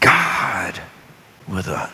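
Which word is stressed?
God. The word God is stressed. "emphasize each word"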